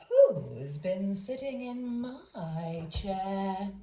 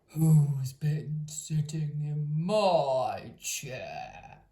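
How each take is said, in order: First: It is said in a middle-sized voice. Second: It is growled in a great gruff voice.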